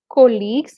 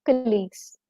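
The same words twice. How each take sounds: First: "colleagues" with a loud, full KOH up front; mispronounced colleagues. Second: "colleagues" with a short, soft kuh, then LEAGUES; correct colleagues. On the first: Teacher warning learners never to say colleagues this way, mispronounced with a long "koh". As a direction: hit "colleagues" wrongly as KOH-leagues. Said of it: "Never pronounce it as". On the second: Teacher modelling the word for learners, colleagues correctly said as "kuh-LEAGUES". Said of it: "The sound is co". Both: Shown as a demonstration.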